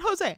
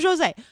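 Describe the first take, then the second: First: The name is said with Spanish pronunciation. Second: The name is said with Portuguese pronunciation. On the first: This is how others wrongly say the name. The speaker calls it wrong. "I am not Jose. I am not Spanish" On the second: This is how the owner says the name. The speaker calls it right. "I am Jose. I am Portuguese"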